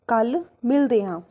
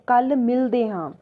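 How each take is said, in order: Both takes have the same delivery.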